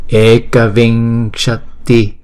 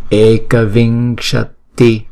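The two takes are said the same way.

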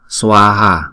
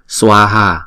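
Both takes have the same delivery.

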